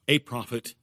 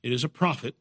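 First: "a" lingered on and weighted, stressing a single prophet. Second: Said in the usual way. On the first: Shown as a demonstration. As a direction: lean on the word "a" to make it singular. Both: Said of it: "he's speaking in the singular".

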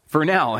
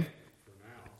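First: A touch higher and louder, out loud; said aloud. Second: Breathy aside, under the breath; whisper. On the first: Teacher repeating the aside aloud for all. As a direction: say it out to the room. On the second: Teacher whispering an aside to the class. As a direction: murmur it just to yourself. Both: Real, not acted.

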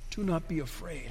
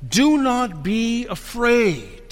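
First: Much softer, reflective; hushed repeat. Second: Slow, measured proclamation; angel's proclamation. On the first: Real, not acted. Preacher letting the angel's words sink in, hushed. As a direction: drop right down, almost to yourself. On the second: Acted. Angel to frightened women at the tomb, slow proclamation. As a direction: declare it slowly, each word weighted. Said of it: "he said to them".

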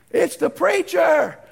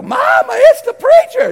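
First: Raised, slow call through a door; acted loud, drawn-out reply; calling back. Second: Put-on high, very loud child's yell; panicked kid hollering through the house; screaming kids. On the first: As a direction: announce yourself to those inside. Preacher calls back through door. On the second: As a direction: shriek a warning to Mama. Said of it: "And the kids go".

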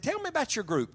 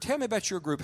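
First: Much higher, eager opening; eager question. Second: Said in the usual way. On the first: Retold or imitated. Preacher eagerly quizzing the student leader, high and keen. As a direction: lift it up with eager curiosity.

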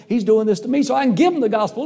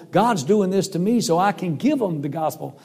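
First: Higher and louder, bursting with joy; excited. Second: Said in the usual way. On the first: Retold or imitated. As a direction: blurt the news to your wife, thrilled. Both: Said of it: "I was so excited".

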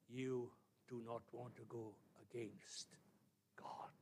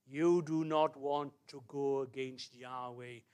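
First: Quiet, deliberate, spaced-out solemnity; grave warning. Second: Slow, firm and loud; deliberate, emphatic preacher's caution; solemn warning. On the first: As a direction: drop to a soft, weighty warning. Warning repeated slowly and softly. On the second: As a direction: weigh each word as a stern warning. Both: Real, not acted.

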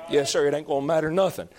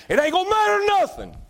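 First: Said in the usual way. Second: Sudden high squealing cry; high preaching cry. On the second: Acted. Preacher crying out to the congregation that titles mean nothing, high cry. Preacher hammering point on hell.

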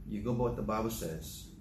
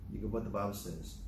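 First: "by" leaned on, falling to a firm close; stress on by. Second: Softer and faster, weight moved to "what"; quiet repeat. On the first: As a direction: press the word "by" like a rule. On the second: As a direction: drop the voice and rush it like a settled point. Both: Shown as a demonstration.

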